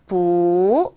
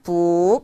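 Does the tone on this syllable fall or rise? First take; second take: rise; fall. First: The syllable has a rising tone. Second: The syllable has a falling tone. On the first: The speaker calls it right. "끝까지 올려주셔야 되겠죠" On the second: The speaker calls it wrong. "뿌가 아니라"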